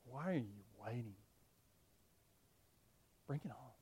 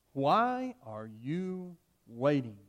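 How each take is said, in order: First: Much softer, reflective repeat; quiet echo. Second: Drawn out very slowly, calm and unafraid; slow defiant challenge. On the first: Shown as a demonstration. Preacher echoing Polycarp's words to the church, softly. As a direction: hush it back as a lesson. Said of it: "That's faith". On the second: Acted. Polycarp's last words to the proconsul, slow and defiant. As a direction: dare the executioner, slowly. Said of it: "his last words".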